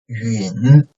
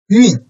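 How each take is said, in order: First: The pitch dips low, then rises slightly. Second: The pitch falls sharply from high to low.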